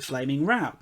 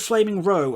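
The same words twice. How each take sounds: First: Row rhymes with cow. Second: Row rhymes with go. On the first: It means a heated argument. "Like having a flaming row with your parents or whatever" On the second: It means a line of things. "as in like a, a row of flames?"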